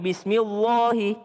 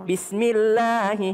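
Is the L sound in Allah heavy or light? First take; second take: heavy; light. First: The L in Allah is heavy and thick. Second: The L in Allah is light and thin. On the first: The speaker calls it wrong. "bukan Bismillahi, salah" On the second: The speaker calls it right. "Allahnya jadi tipis"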